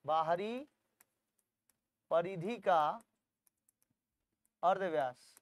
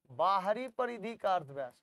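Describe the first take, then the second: First: "बाहरी", "परिधि का", "अर्धव्यास" in separate pieces with long pauses; long gaps after "बाहरी" and "परिधि का"; dictation pauses. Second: Said in the usual way. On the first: Shown as a demonstration. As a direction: dictate slowly, lifting "बाहरी" and dropping on "अर्धव्यास".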